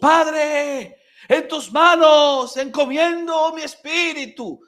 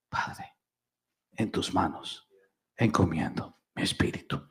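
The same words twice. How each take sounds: First: The phrase is shouted in a loud voice. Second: The phrase is whispered very softly. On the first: "lo gritó a gran voz" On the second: "no es un grito, es un susurro"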